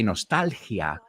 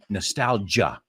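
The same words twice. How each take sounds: First: It is said with Spanish vowels and stress. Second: It is said with English vowels and stress. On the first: This is how Spanish speakers say it. "you say nostalgia" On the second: This is how English speakers say it. "we say nostalgia"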